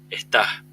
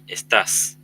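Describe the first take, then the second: First: The word ends with a breathy h sound. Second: The word ends with a clear s sound. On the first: "en chileno sería ... con una H al final en el segundo caso" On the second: "en español estándar"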